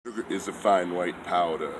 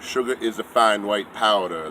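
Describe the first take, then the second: First: It is said at normal volume. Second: It is said a little louder.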